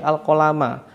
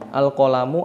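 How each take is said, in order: First: The word ends with an a vowel. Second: The word ends with a u vowel. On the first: The speaker calls it right. "Fathah di akhir kata" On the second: The speaker calls it wrong. "Saya tidak membaca al-qalamu"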